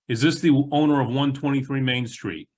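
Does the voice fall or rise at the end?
fall. The voice stays firm and falls at the end. The question sounds strong. The speaker calls it right. "Ask the questions stronger"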